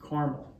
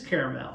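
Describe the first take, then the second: First: The middle vowel is dropped from the word. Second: The middle vowel is clearly pronounced in the word. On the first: This is how people from Western Kansas say it. The speaker calls it wrong. "if you're like me, you're from Western Kansas, you might pronounce it" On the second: This follows the spelling of the word. The speaker calls it right. "you know it has an A in there"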